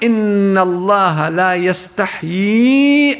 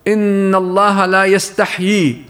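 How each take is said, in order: First: The speaker continues without stopping after the word. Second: The speaker stops right after the final word. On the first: The intended meaning is kept intact. The speaker calls it right. "بل هي" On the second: The meaning becomes distorted and improper. The speaker calls it wrong. "تقف عليها وتقول مثلا إن الله لا يستحي، توقف هون"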